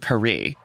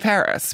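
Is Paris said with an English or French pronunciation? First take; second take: French; English. First: The name is said with French pronunciation. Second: The name is said with English pronunciation. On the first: The speaker calls it wrong. "you don't say, oh, I'm going to Paris" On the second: The speaker calls it right. "you say Paris, right? Because we're speaking in English"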